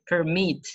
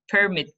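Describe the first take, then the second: First: "permit" as the verb, per-MIT; last-syllable stress. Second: "Permit" as the noun, PER-mit; first-syllable stress. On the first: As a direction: lean on the end of "permit". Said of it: "The stress is on the last". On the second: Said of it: "on the first syllable". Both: Shown as a demonstration.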